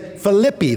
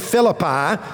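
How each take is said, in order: First: The name is said in a Greek way. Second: The name is said in an English way. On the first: "if you're in Greece today, they say Philippi" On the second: "they don't say Philippi"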